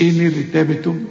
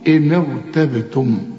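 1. صوت الراء مرقّق ورفيع. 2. صوت الراء مفخّم وممتلئ الفم. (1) "مش إن ارتبتم" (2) "قول إن ارتبتم"

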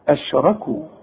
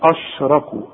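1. يُنطق صوت sh مرققًا ونحيفًا. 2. يُنطق صوت sh مفخمًا وغليظًا. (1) "هنرقق" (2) "ارجوك ما تقولش اشركوا اش"

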